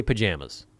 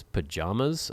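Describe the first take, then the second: First: "pajamas" as puh-JAM-uz; own pronunciation. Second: "Pajamas" as puh-JAH-muz, questioning; alternative pronunciation. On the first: Telling viewers their own way, puh-JAM-uz. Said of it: "I say pajamas". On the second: Puzzling over a quiz option, questioning puh-JAH-muz. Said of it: "What is this?". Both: Shown as a demonstration.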